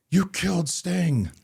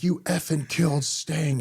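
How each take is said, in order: First: High, slow, loud tearful wail as a fan; imitating distraught fan. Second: High, slow, louder sobbing accusation pushed harder; imitating crying fan. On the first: Fan in meltdown confronts Vampiro at signing, high tearful wail. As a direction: mimic a fan on the verge of tears, pleading slowly. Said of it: "this emotional meltdown". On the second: Crying fan repeats it to Vampiro, even more distraught. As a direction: push the accusation further, near tears. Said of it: "he's crying".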